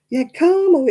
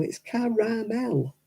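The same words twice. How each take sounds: First: Caramel said the American way, two syllables. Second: Caramel said slowly with three syllables, clear A; British caramel. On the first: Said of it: "it's not caramel". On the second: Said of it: "It's got an A in it". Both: Shown as a demonstration.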